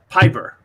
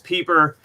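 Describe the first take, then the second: First: The first vowel sounds like 'eye'. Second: The first vowel sounds like 'ee'. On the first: This is the older, original form of the name. "If you use the Scottish pronunciation, which is where the name is originally from" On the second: This is the current form of the name. "if you use the German enunciation, it reads phonetically"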